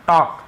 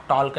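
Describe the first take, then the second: First: टॉक with no L, straight from vowel to K; silent L. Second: टॉक with the silent L sounded before the K; wrong L pronunciation. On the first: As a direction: say टॉक as "tawk". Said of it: "यहाँ पर भी देखिए एल silence है". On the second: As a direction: say टॉक as "tolk", L audible. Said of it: "टॉक नहीं है". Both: Shown as a demonstration.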